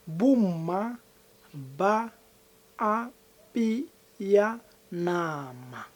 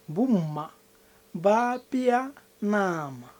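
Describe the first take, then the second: First: It is said slowly. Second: It is said at normal speed.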